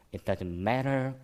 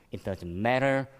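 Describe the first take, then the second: No difference in how they are said.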